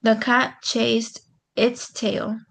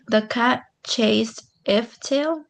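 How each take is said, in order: First: Slow, careful reading of "The cat chased its tail."; trying the right word. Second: Slow, tentative reading of "The cat chased if tail."; trying a wrong word. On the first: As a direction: read "its" slowly, checking it fits. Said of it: "I don't think so". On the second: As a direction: read "if" slowly as a test. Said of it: "That doesn't go right". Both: Shown as a demonstration.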